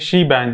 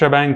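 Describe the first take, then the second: First: The first syllable has a long 'ee' vowel. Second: The first syllable has a short 'eh' vowel. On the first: The speaker calls it wrong. "बहुत लोग समझेंगे शी बैंग है, लेकिन इसको ऐसे नहीं pronounce किया जाता है" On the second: The speaker calls it right. "इसको हम शेबैंग कहते हैं"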